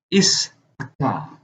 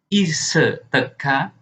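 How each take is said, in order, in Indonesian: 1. Tidak ada vokal yang mengikuti suku kata pertama. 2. Vokal tambahan mengikuti suku kata pertama. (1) "melainkan is teka" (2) "bukan sebagai ise teka"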